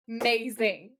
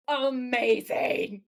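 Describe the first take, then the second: First: Amazing broken after the first syllable; A... MAZING, split for emphasis; emphatic repeat. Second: AMAZING stretched very slowly across every syllable; slow, gushing, elongated amazing; drawn-out emphasis. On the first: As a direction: pause after the A, then land MAZING. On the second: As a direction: draw out amazing, savouring each syllable. Emphatic verdict on the episode. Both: Real, not acted.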